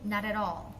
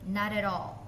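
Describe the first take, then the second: Both takes have the same delivery.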